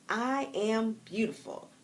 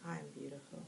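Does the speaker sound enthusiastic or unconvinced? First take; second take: enthusiastic; unconvinced. First: It is said warmly, with a smile. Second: It is said flatly, without conviction. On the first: The speaker believes it. The speaker calls it right. "I say it with a smile" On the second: The speaker does not believe it. The speaker calls it wrong. "If you're saying it like that, you don't believe it"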